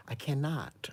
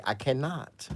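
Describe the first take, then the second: First: Breathy whisper of disbelief. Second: Said in the usual way. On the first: Retold or imitated. Watching a bad wig video, a hushed whisper. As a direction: whisper it like you can't bear to look.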